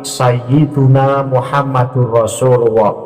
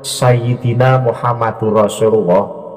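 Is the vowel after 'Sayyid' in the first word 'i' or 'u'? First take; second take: u; i. First: The first word has a 'u' after 'Sayyid'. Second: The first word has an 'i' after 'Sayyid'. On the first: The speaker calls it right. "tetapi Sayyiduna Muhammadur Rasulullah" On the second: The speaker calls it wrong. "bukan Sayyidina Muhammadur Rasulullah"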